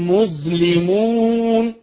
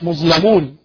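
First: The L is followed by an i vowel. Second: The L is followed by a non-i vowel. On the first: The speaker calls it right. "اللام تحتها كسرة" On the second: The speaker calls it wrong. "مش مظلمون"

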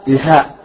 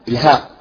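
Both takes have the same delivery.

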